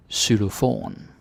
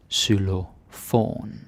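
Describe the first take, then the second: First: Xylofon said "sylofon", rising; Danish word. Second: Xylofon said very slowly, "sy-lo-fon"; slow Danish word. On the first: Teacher models Xylofon for learners. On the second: Teacher repeats Xylofon very slowly for learners. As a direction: stretch Xylofon syllable by syllable. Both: Shown as a demonstration. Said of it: "teacher models word twice".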